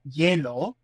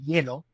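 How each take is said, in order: First: The final vowel is drawn out into a glide. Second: The final vowel is short and clipped. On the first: Listeners would not understand the word. The speaker calls it wrong. "I'm exaggerating" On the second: Listeners understood the word. The speaker calls it right. "in a more abbreviated fashion"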